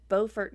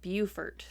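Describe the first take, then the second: First: It is pronounced the North Carolina way. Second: It is pronounced the South Carolina way. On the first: It names the town in North Carolina. "It's Beaufort, North Carolina" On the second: It names the town in South Carolina. "and Beaufort, South Carolina"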